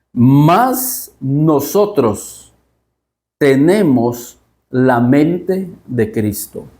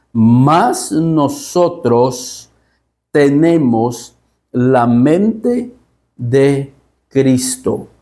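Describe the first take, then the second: The two takes are said the same way.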